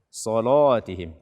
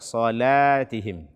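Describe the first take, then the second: First: The lam is pronounced heavy and thick. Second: The lam is pronounced light and thin. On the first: The speaker calls it wrong. "membaca lam setelah shad dengan tebal" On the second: The speaker calls it right. "Akan tetapi baca"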